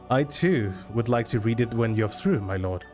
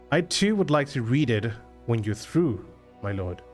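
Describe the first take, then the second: First: The sentence is spoken straight through without stopping. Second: The sentence is spoken with a pause inside it. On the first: "I would do so going without stopping" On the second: "He does like a pause there"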